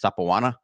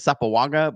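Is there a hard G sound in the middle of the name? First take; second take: no; yes. First: The middle consonant is softened, without hard G. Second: The middle consonant is a hard G. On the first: The speaker calls it right. "he said it was Sapoana. Something about that G" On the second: The speaker calls it wrong. "I always said it Sapoaga"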